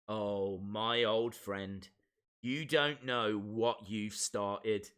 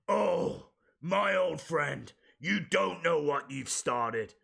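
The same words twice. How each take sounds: First: It is read in the speaker's ordinary voice. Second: It is said in an imitated character voice.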